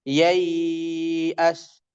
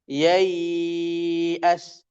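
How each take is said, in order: The two takes are said the same way.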